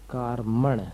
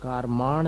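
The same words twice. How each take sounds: First: कार्मण with a short "a" in the second syllable; careful कार्मण, the "ma" kept short; correct short-vowel कार्मण. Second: कारमाण with a long drawn "maa" in the second syllable; wrong version कारमाण, second vowel stretched long; mispronounced long vowel. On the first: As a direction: say कार्मण as KAAR-muhn, short last vowel. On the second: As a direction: say कारमाण as kaar-MAAN. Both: Shown as a demonstration. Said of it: "कारमाण नहीं है".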